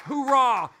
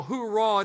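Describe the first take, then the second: First: Barked military hoorah, louder; rally the recruits with one loud cry; hoorah shout. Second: Said in the usual way. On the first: Acted. Pastor pumping up recruits with a loud hoorah. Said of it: "a little hoorah at M C R D with some recruits". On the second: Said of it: "Kind of like a little hoorah".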